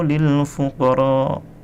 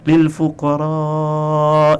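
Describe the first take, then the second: First: The final vowel of fuqara is cut short. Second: The final vowel of fuqara is drawn out long. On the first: The speaker calls it wrong. "salah lagi kan saya? Karena memang pada tadi dia baca pendek" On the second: The speaker calls it right. "harusnya memang lil fuqara kan gitu"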